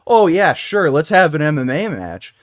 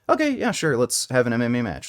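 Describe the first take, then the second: First: It is said in a joking, unserious tone. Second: It is said flatly and matter-of-factly.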